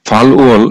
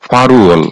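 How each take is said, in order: First: The two parts are said separately with an L. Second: The parts are linked with an R sound.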